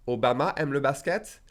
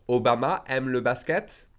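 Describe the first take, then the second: No difference in how they are said.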